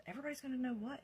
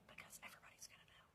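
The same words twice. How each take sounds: First: Said in the usual way. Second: Quick secretive whisper; retold whisper. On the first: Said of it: "And he said". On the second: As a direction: breathe it out in a hush. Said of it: "Why are you whispering?".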